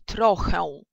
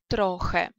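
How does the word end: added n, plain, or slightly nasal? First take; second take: added n; plain. First: The final vowel is followed by an n sound. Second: The final vowel is a plain e sound. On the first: The speaker calls it wrong. "Но никогда поляк ... не будет произносить" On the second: The speaker calls it right. "произноситься оно будет просто как «э»"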